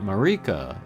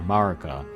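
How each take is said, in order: First: The name has a marked stressed syllable. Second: The name is said with flat, even pitch. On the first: The speaker calls it wrong. "not Marika" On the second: The speaker calls it right. "the flatter Marika"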